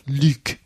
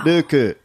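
First: The name ends cleanly on a consonant. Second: The name ends with an added vowel sound. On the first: "And in France, obviously in France, it's like Luke" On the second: "And in Japan, it's Ruku"

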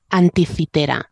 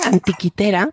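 First: The middle consonant is a soft th-like fricative. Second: The middle consonant is a hard k stop. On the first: It follows the usual Spanish form of the place name. "Con la fricativa dental sorda" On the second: It keeps the Greek sound and feels more epic. "la oclusiva griega"

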